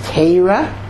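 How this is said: Torah is said in a Lithuanian Hebrew accent. "which is the Litvisha pronunciation"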